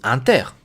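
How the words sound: It is said with a French pronunciation. "En français ça se dit Inter"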